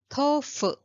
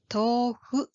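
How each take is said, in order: First: The middle sound is a sharp English f. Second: The middle sound is a soft h-like breath. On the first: The speaker calls it wrong. "not tofu" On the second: The speaker calls it right. "This pattern is the same"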